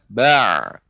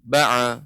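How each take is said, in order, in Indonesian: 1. Suku kata itu dimulai dengan kuat lalu memudar. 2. Suku kata itu tetap kuat tanpa memudar. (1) "kuat kemudian melemah"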